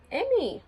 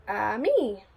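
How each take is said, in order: First: Said in the usual way. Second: Ami said the French way, ah-MEE; French pronunciation. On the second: Shown as a demonstration. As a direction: carefully model the French word ami. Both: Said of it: "You say it like this".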